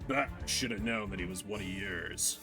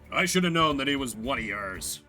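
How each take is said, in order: First: It is said in a deeper, growly voice. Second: It is said in a smoother, less growly voice.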